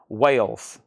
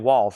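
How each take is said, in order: First: The name rhymes with 'sails'. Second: The name rhymes with 'calls'. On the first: The speaker calls it right. "Yes. W A I L S" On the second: The speaker calls it wrong. "I've been saying Walls"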